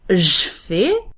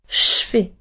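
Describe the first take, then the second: First: The je begins with a voiced buzzing zh sound. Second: The je begins with a voiceless hissing sh sound. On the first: The speaker calls it wrong. "I actually tried to pronounce it like je fais, but it is very hard" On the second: The speaker calls it right. "Now it is more of a whistle"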